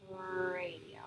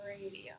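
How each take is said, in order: First: Radio with the r drawn out long; stretched first syllable. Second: Said in the usual way. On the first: Shown as a demonstration. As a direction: drag out the r of radio. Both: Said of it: "so you drag out the first sound".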